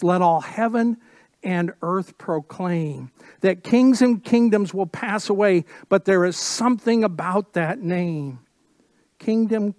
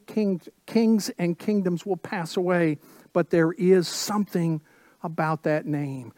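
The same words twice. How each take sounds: First: Louder, ringing declaration of kings and kingdoms passing; fervent proclamation. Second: Said in the usual way. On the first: Acted. Pastor proclaiming the old song's words to the church, fervent preaching. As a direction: build it up like a call to worship.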